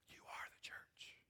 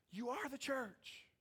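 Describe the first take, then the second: First: Slow, hushed whisper; whispered secret. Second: Slow, high, drawn-out voice; high-pitched repeat. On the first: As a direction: whisper it slowly to the congregation. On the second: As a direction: repeat it slowly up high to drive it home. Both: Real, not acted.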